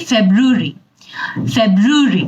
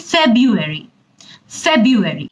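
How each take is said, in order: First: British ফেব্রুয়ারি said as feb-ru-ri; British English. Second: American ফেব্রুয়ারি said as feb-u-ary; American English. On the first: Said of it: "British English যদি আমরা follow করি". (British উচ্চারণে ফেব্রুয়ারি) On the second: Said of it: "আর যদি American English বলি". (American উচ্চারণে ফেব্রুয়ারি) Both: Shown as a demonstration.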